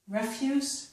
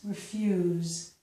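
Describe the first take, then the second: First: The word ends with an s sound. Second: The word ends with a z sound.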